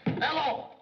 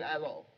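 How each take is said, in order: First: Loud, high blurted hello; shouted hello. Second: Said in the usual way. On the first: Acted. Secretary overeager on the phone, loud high hello. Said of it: "I mean, hello". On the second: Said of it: "I mean".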